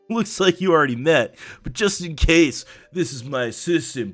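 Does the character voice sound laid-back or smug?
smug. The voice sounds smug and jerk-like. The speaker calls it wrong. "He sounds just like a jerk"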